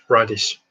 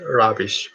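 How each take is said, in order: First: The word sounds like radish. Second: The word sounds like rubbish. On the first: The speaker calls it wrong. "I was thinking it's radish, radish, uh, like this" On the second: The speaker calls it right. "correctly is rubbish, like this"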